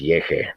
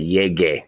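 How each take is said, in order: First: The middle consonant sounds like a breathy H. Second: The middle consonant is a hard G sound. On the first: The speaker calls it wrong. "it goes soft. Like a soft G is pronounced like an H" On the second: The speaker calls it right. "But we want to say yege, a hard G"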